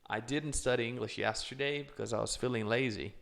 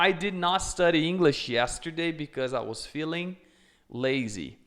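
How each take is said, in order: First: Did not is contracted into one syllable. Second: Did not is said as two full words.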